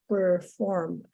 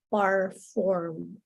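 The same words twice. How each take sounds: First: The first syllable sounds like 'per'. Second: The first syllable sounds like 'par'. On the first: The speaker calls it right. "instead of perform" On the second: The speaker calls it wrong. "you said like perform"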